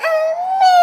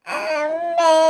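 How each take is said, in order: First: High tearful wail for mother; crying call. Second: Said in the usual way. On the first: Acted. Sick little girl calling her mother, high crying wail. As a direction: cry out for mummy like a small child.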